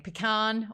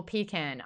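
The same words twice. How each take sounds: First: Pecan as "puh-KAHN", stress on the end. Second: Pecan as "PEE-can". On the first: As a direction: say Pecan with a long "ah". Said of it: "the pecan struggle". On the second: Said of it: "I say pecan". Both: Shown as a demonstration.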